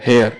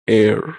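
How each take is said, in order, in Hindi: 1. यह शब्द h ध्वनि से शुरू होता है। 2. यह शब्द स्वर ध्वनि से शुरू होता है। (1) "इसको पढ़ेगा हेयर" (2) "प्रोनाउंसिएशन होता है एयर"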